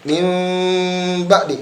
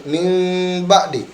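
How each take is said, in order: No difference in how they are said.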